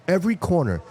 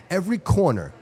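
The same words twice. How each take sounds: The two takes are said the same way.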